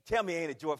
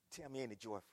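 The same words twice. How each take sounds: First: Loud call. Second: Soft ask. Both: Shown as a demonstration.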